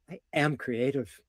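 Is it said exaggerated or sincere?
sincere. It is said deeper, sincerely, without exaggeration.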